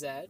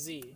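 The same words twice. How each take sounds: First: The letter is said the Canadian way. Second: The letter is said the American way. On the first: "Canadian is Z" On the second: "American is Z"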